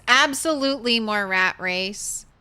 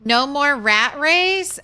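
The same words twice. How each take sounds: First: Absolutely punched as a firm answer; stress on Absolutely. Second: Slow, loud mock-doubtful question; drawn out rising question; teasing question. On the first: Pretend. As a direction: lean hard on Absolutely.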